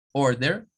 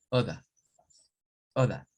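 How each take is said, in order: First: American order; rhotic order. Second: Non-rhotic British order. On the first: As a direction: order with the R sounded, rising. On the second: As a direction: order with no R, drawn out, oda. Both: Shown as a demonstration. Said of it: "se aprecia un cambio entre un sonido y otro".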